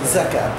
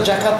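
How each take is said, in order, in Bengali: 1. শব্দটি 'z' ধ্বনি দিয়ে শুরু হয়। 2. শব্দটি 'j' ধ্বনি দিয়ে শুরু হয়। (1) "শব্দটা হলো যাকাত" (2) "শব্দটা জাকাত নয়"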